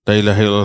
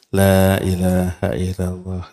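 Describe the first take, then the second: First: It is said quickly and indistinctly. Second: It is said slowly and clearly. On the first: The speaker calls it wrong. "Jangan dikebut" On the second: The speaker calls it right. "Boleh. Dengan kalimat yang jelas"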